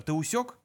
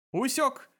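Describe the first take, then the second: First: Said in the usual way. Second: High, perky computer reply; chirpy. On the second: A narrator's reading. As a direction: report back brightly, in a high voice. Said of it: "бодро отрапортовал компьютер".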